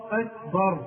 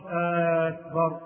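First: "أكبر" with a short first vowel; correct short hamza. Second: "أكبر" opened with a long held aa; wrong long hamza. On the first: Teacher gives the right word, short opening vowel. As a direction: say "أكبر" without stretching its opening. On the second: Teacher shows what not to say, long opening vowel. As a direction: stretch the first vowel of "أكبر" slowly. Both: Shown as a demonstration. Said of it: "مش أكبر".

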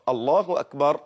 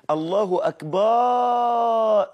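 First: Said in the usual way. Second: الله أكبر with a high, long-held "akbaaa"; wrong long alif. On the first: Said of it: "ما تقولش أكبر". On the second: Shown as a demonstration. Teacher showing what not to say, wrongly lengthened. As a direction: stretch the end of أكبر into a long aa. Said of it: "لا، أكبر دي لا".

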